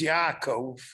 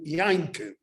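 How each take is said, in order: First: The name is said without an N sound. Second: The name is said with an N sound.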